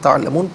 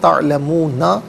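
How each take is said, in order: First: The word ends on the consonant n. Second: The word ends with a final vowel sound. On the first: The reader stops at this word. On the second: The reading continues without stopping here.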